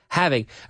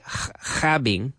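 First: The H is a soft breathy sound. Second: The H is a harsh throaty sound. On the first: The speaker calls it right. "the H in English is softer" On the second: The speaker calls it wrong. "we don't say having"

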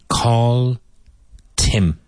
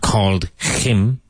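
First: The h drops and the d links into him. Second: The h in him is clearly pronounced. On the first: The speaker calls it right. "It is almost as if you're saying call Tim" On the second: The speaker calls it wrong. "it's not called him"

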